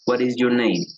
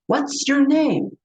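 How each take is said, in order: First: The pitch stays flat and monotone. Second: The pitch moves with lively, varied tones. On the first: The speaker seems uninterested. The speaker calls it wrong. "yo no pregunto" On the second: The speaker shows interest. The speaker calls it right. "utilizamos los tonos de voz"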